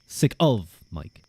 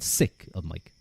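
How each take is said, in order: First: The stress falls on the word of. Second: The stress falls on the word sick. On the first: "What if I put it on the of?" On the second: "That just sounds like I'm being mean to you"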